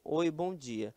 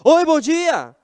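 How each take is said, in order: First: It is said in a calm, normal voice. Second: It is said loudly, almost shouting.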